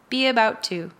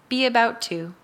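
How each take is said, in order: The two takes are said the same way.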